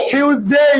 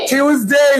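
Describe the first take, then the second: No difference in how they are said.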